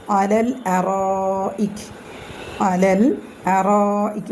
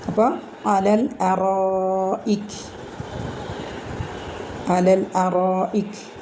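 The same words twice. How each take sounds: First: അറായിക് with the long a stretched four counts; four-count madd. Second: അറായിക് stretched long, four beats; four-count madd. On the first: Teacher showing the long vowel, stretched madd. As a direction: hold the alif of അറായിക് for four beats. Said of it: "four count ... നീട്ടിയിട്ട്". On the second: Teacher repeating after the rule, long madd. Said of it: "നീട്ടിയിട്ട് pronounce ചെയ്യുക". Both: Shown as a demonstration.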